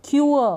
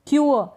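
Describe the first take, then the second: Both takes have the same delivery.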